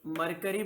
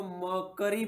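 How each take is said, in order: First: मरकरी with the first R pronounced, "mur-kuh-ree"; मरकरी as "mur-kuh-ree", R audible; MERCURY with R sounded. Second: मर्करी as "maw-kuh-ree", first R dropped; मर्करी drawn out as "maw-kuh-ree", no "kyu"; MERCURY with silent R. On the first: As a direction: say मरकरी slowly, sounding the R before K. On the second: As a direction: say मर्करी slowly, leaving out the R before K. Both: Shown as a demonstration. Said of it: "आर silent होता है".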